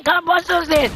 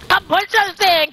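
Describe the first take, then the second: First: Said in the usual way. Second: High, slow and stretched out; slow drawn-out call. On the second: Shown as a demonstration. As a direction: drag out each word, calling.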